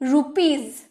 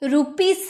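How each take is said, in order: First: The final sound is a buzzing z. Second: The final sound is a hissing s. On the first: The speaker calls it right. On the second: The speaker calls it wrong.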